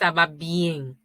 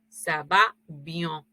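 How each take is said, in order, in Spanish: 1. La vocal de "bien" suena como una E sencilla. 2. La vocal de "bien" suena nasal, más cercana a la O. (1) "no es ça va bien" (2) "suena más como una O más que como una E"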